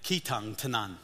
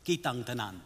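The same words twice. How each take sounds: First: "Kitang Tanan" with puffed, aspirated k and t; aspirated English way. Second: "Kitang Tanan" with soft unaspirated k and t, no puff of air; Cebuano unaspirated. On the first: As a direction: push air on the k and t of "Kitang Tanan". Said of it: "I was saying it". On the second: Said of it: "In their language, it sounds like this". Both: Shown as a demonstration.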